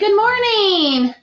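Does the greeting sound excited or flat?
excited. It is said excited, with the voice going up. "My voice is going to go up"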